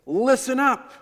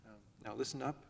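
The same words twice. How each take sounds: First: Much higher and louder, barked command; strident shout. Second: Much softer, a gentle hushed ask; soft request. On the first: Father pounding his fist yelling at noisy kids, shouting. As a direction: yell over the noise to get attention. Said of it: "stridently crying out, maybe clapping my hands". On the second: Father at the door asking kids to listen, hushed. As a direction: ask them softly to listen. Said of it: "that isn't always as effective as raising your voice". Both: Retold or imitated.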